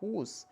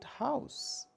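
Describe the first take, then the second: First: The vowel is a long 'oo' sound. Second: The vowel is an 'ow' sound. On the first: This is the older pronunciation. "earlier on we used to read word" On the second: This is today's pronunciation. "after the great wall shift, we started pronouncing it"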